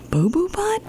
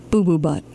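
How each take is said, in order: First: Boo Boo Butt much higher, rising, disbelieving; incredulous question. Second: Said in the usual way. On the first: Acted. Librarian can't believe the hippo's name, high rising Boo Boo Butt. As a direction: repeat Boo Boo Butt in shock.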